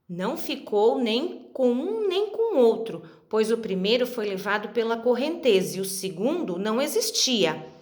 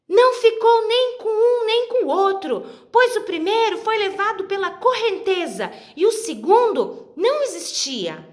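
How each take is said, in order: First: It is read in a very serious tone. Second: It is read in a very angry tone.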